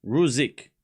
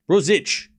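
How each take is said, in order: First: Ruzik with a z and a final k; practising pronunciation. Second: Ruzic ending in ch, higher and louder; corrected pronunciation. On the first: Streamer working on the name piece by piece, practising pronunciation. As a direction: say Ruzik as ROO-zick. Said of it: "The end was fine". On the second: Streamer correcting the TV's version, corrected pronunciation. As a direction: say Ruzic as ROO-zitch, punched out. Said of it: "It's Ruzic". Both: Shown as a demonstration.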